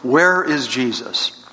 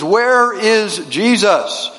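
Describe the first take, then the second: First: It is asked sternly at a moderate volume. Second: It is asked sternly at a very loud volume.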